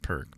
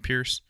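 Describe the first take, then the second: First: The name is said like 'Perk'. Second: The name is said like 'Pierce'. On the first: The speaker calls it wrong. "I pronounced it Perk" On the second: The speaker calls it right. "it's actually Pierce"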